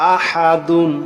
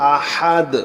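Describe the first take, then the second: First: The word ends with a nasal 'un' sound. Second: The word ends on a plain 'd' sound. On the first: The reading continues on. "দাল দুই পেশ দুন" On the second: The reading stops here. "থামলে হবে আহাদ"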